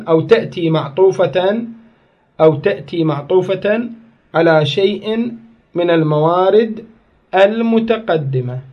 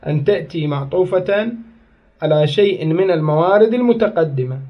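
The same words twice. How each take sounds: First: Slow dictation pace, each phrase set apart with pauses; dictating slowly. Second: Said in the usual way. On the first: Shown as a demonstration. Teacher to students taking notes, slow dictation. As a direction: spell it out slowly so the class can write. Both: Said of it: "خل أعيدها على مود تكتبون".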